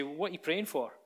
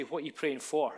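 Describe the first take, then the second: First: "praying" stressed, question falls. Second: "for" stressed at the end of the question. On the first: Preacher contrasting two emphases, stressing "praying". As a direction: lean on the word "praying". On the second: Preacher contrasting two emphases, stressing "for". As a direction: lean on the final word "for". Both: Shown as a demonstration. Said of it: "put the emphasis on that question in two ways".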